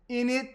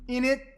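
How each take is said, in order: First: The tag is squeezed into a short innit. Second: The same.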